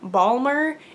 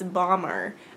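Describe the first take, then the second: First: The word is pronounced in an odd way. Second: The word is pronounced in the usual way. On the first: The speaker calls it wrong. "I'm pronouncing it strangely" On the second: The speaker calls it right. "It's Bomber"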